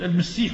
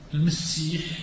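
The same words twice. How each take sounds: First: The s sound is single and short. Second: The s sound is doubled and held longer. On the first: It refers to the true messiah. "والمسيح مخفف عيسى" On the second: It refers to the false messiah. "المسيح مثقل الدجال"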